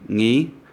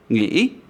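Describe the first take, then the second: First: The word is said on a level tone. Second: The word is said on a broken rising tone. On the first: It is a person's name. "with no accent, that is the name Ngi" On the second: It means to think. "With the tilde, ngi, think"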